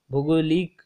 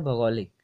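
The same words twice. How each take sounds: First: "भौगोलिक" said with a short "bhu" opening, as "bhugolik"; wrong-option pronunciation. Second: "भौगोलिक" said with an open "bhau" first syllable, bhau-go-lik; correct pronunciation. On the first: Teacher reading out a wrong answer option, "भौगोलिक" mispronounced as "bhugolik". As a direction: open "भौगोलिक" on an u sound, bhu-go-lik, louder. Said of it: "इसका पहला ही option सही है". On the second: Teacher giving students the right answer, "भौगोलिक" pronounced "bhau-go-lik". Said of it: "इसका उच्चारण होता है". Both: Shown as a demonstration.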